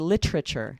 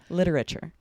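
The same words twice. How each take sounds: First: One syllable is dropped, giving three syllables. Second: All four syllables are said, quite quickly. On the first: "Some people will say literature, and they remove that that syllable" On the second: "I also pronounce all of these syllables, all four syllables, but I say them quite quickly"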